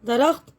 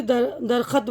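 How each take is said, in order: First: दरख्त with र and ख joined; दरख्त said as dar-akht; correct darakht. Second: दरख़त broken up with an extra vowel; दरख़त as da-ra-khat, not joined; wrong darakht. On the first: Teacher models the right दरख्त. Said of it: "दाल रे में ख़ा को मिलाएंगे". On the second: Teacher shows how not to say दरख़त. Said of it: "दरख्त लफ्ज़ है, ना कि". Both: Shown as a demonstration.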